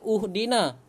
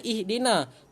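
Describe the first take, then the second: First: The word begins with a u vowel. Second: The word begins with an i vowel. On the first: The speaker calls it wrong. "Tidak dibaca uhdina" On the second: The speaker calls it right. "Kenapa kita baca ihdina?"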